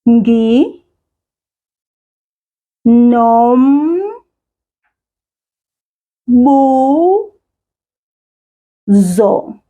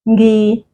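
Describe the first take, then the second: First: It is said slowly, syllable by syllable. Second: It is said at normal speed as one word.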